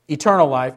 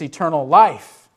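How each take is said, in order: First: The stress falls on the word eternal. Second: The stress falls on the word life. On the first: Life that simply lasts forever in time. The speaker calls it wrong. "It's not eternal life" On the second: A quality of life found in relationship. The speaker calls it right. "it's eternal life"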